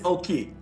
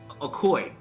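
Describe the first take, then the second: First: It is said with two syllables, oh-kee. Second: It is said with an extra syllable, ah-koy. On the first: The speaker calls it right. "so it is Oki" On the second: The speaker calls it wrong. "did I say it right? It's Akoi"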